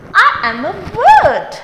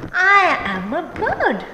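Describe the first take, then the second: First: Higher little-bird voice, playful; storybook bird speaking. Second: Said in the usual way. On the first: Acted. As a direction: say it as the bird character, pitched up. First take in bird voice.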